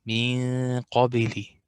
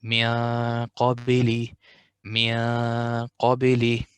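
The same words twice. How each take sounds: First: من قبل with a wrongly thin nasal noon; wrong light ghunna. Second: من قبل with a heavy, dark noon hum; magnified nasal tone. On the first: Retold or imitated. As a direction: imitate the common mistake lightly. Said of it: "I hear people say". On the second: Shown as a demonstration. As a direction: thicken the hum before qaf. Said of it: "you have to make it magnified".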